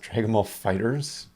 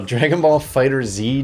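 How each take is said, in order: First: The last word ends as plural Fighters. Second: The last word ends with a separate letter Z. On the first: The speaker calls it right. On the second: The speaker calls it wrong.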